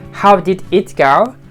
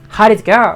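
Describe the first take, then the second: First: 'How did' is said as two full words. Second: 'How did' is shortened to 'how'd'. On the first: "instead of saying like" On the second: "Because of the contraction"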